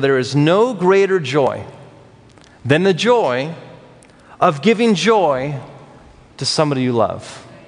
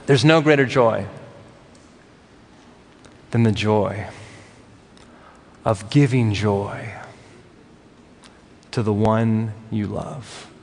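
First: It is said at a faster pace. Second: It is said at a slower pace.

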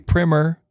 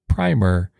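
First: The first vowel is short, as in 'prim'. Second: The first vowel is long, as in 'prime'. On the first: This is the form that authorities say is correct for the book. "I say primer under protest" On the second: This is the form used for paint. "I've always pronounced the word primer"

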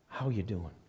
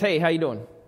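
First: It sounds like a sincere, caring question. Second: It sounds like a casual, passing greeting.

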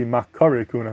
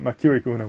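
First: The second vowel is an 'a' sound. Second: The second vowel is an 'i' sound. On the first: The speaker calls it right. "the proper pronunciation should really be Makari Kohuna, with a patach" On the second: The speaker calls it wrong. "not Makiri Kohuna"

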